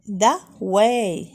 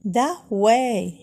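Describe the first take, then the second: No difference in how they are said.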